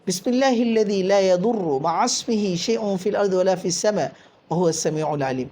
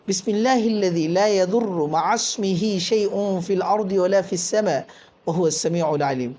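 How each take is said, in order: No difference in how they are said.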